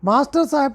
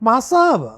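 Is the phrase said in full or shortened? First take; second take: full; shortened. First: Both words are said in full. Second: The words are squeezed into one short word.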